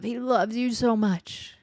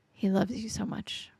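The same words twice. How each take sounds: First: Slow, tender, voiced and sincere. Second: Soft unvoiced whisper, intimate. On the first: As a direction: lean in and say it slowly, full voice. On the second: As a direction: breathe it to the listener like a secret. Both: Real, not acted. Repeated line, voiced then whispered.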